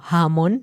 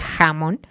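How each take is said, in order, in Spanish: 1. El primer sonido es un soplo suave. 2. El primer sonido es un sonido fuerte y áspero en la garganta. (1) "que dicen como jamón" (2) "en vez de jamón"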